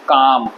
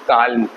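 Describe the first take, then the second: First: No l sound is heard in the word. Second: An l sound is heard before the m. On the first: The speaker calls it right. "एल silent होता है" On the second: The speaker calls it wrong. "ऐसा आप कोई बोले नहीं होंगे"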